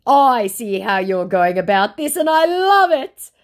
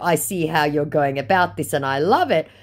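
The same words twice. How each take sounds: First: High and gushing, rising on love; syrupy mock praise, slowing at the end; mocking scammer voice. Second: Said in the usual way. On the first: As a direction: ham up the scammer's fake admiration. Scammer's praise read aloud.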